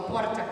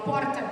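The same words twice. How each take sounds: First: Porta with a tapped R; southern R. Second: Porta with the speaker's gaúcho R; her own R in porta. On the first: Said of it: "Eu falo porta". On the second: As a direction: say porta with your own southern R. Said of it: "meu R". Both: Shown as a demonstration.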